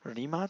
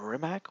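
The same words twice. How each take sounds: First: The name ends with a z sound. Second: The name ends with a k sound. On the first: The speaker calls it right. "supposed to be pronounced like Rimac with a Z at the end" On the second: The speaker calls it wrong. "instead of Rimac with a K at the end or a C at the end"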